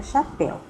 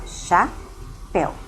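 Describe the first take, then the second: First: Said in the usual way. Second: "chapéu" broken into two syllables, cha, then péu, with a pause between; "chapéu" pulled apart as cha... péu; split into syllables. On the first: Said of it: "eu vou separar chapéu". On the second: Shown as a demonstration. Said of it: "Então, eu vou separar".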